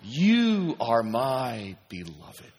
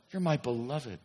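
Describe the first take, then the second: First: Very slow, weighty; a preacher letting the words land; slow affirmation. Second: Softer, quieter repeat; an echo of the same words. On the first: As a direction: stretch each word out. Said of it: "slow repeated affirmation". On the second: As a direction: let it fall softly. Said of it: "softer repetition". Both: Shown as a demonstration.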